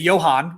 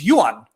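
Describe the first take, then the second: First: It is said with an American pronunciation. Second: It is said with a Swedish pronunciation. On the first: "in America we say Johan" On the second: "my Swedish friend's name Johan is Johan"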